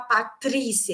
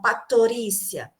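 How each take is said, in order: First: The t and r are said together. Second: A vowel is inserted between t and r. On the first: "Eles não conseguem falar Patrícia" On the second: "então eles falam Patorícia"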